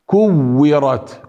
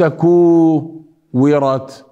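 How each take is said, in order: First: كورت with short u, held double w; correct shadda. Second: كورت split after a long oo; wrong madd. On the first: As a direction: lean on the waw in كورت. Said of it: "هنا الشدة". (كورت بواو مشددة) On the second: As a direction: hold the oo in كورت, then release. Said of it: "هذه مد". (كورت بمد الكاف خطأ) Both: Shown as a demonstration.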